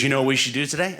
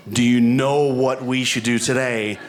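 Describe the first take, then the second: First: Said in the usual way. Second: Slow mock quote. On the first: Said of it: "Instead, she goes". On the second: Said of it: "no woman has ever said".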